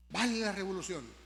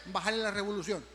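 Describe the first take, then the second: No difference in how they are said.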